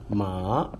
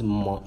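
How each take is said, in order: First: The pitch rises toward the end. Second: The pitch stays high and level. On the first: "ma is going up, rising" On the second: "ma is ma, mama"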